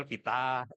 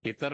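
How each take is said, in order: First: "pita" ending in an open Australian "ah"; Australian accent. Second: Said in the usual way. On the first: Shown as a demonstration. Judge showing how Australians say Peter, Australian accent on "pita". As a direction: drop the r in "pita", Australian style. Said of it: "lebih enak gitu". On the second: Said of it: "Kalau Inggris Australia lebih".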